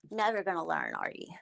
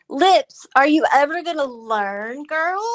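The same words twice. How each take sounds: First: Hushed mocking whisper. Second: Loud taunting call to Lips; mocking call-out. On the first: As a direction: whisper it as a sly aside. Answers own taunt aside. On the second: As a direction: call her out, teasing and loud. Taunting the rival by name. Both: Real, not acted.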